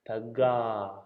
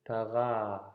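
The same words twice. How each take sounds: First: The middle consonant is a hard g. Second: The middle consonant is a softened g. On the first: "So let's go hard G" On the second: "And then soften the G"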